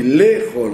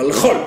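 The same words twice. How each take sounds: First: Les chol with the e in les sounded. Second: Le chol whispered as the wrong form. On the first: Teacher to class, correct les chol. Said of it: "on dit les chol". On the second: Teacher to class, whispering the wrong le chol. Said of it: "on dit pas le chol". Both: Shown as a demonstration.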